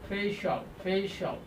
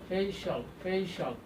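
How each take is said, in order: Both takes have the same delivery.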